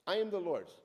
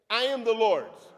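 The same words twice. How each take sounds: First: Said in the usual way. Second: Loud, higher ringing declaration; loud call-and-response. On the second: Shown as a demonstration. Preacher leading the congregation in a loud affirmation. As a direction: shout it out for all to join. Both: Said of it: "Say that with me".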